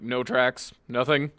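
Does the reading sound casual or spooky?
casual. It is read in a flat, offhand, casual tone. Maybe there was nothing there at all. "Suddenly it's less spooky"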